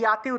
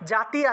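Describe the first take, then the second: First: The word begins with a y sound. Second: The word begins with a j sound. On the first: The speaker calls it right. "জাতিকে ইয়াতি উচ্চারণ করতে হবে" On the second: The speaker calls it wrong. "জাতি আছে"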